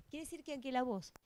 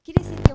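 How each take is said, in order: First: Said in the usual way. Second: Distorted, booming mic overload; words blown out by a faulty microphone; microphone blast. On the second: Real, not acted. Lecturer's sentence blasted loud by a faulty microphone. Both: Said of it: "tenemos un problemita con el micrófono".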